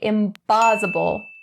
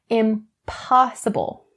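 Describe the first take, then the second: First: The middle consonant sounds like a b. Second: The middle consonant sounds like a p. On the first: The speaker calls it wrong. "Don't change the p in impossible to the b. Don't say impossible" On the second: The speaker calls it right. "That is not correct"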